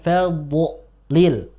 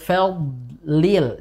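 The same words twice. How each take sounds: First: The consonant is released with a bouncing echo. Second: The consonant is held without any bounce. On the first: The speaker calls it wrong. "Jangan ... ada pantulan" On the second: The speaker calls it right. "hilangkan pantulannya"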